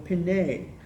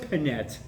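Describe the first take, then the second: First: The name ends on a vowel sound. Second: The name ends with a t sound. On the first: The speaker calls it wrong. "I go Pinay" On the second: The speaker calls it right. "And it was Pinette"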